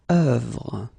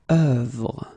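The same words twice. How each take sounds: No difference in how they are said.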